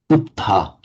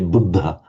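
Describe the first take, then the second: First: The middle consonant has no breathy voiced release. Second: The middle consonant has a breathy voiced release. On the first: "They say" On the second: "The Thais can't say Buddha"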